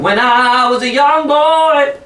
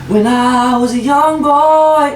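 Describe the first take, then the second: First: The voice is clear with little breath escaping. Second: The voice is airy with much breath escaping. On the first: The speaker calls it right. "that's suddenly loud" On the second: The speaker calls it wrong. "it's full of air"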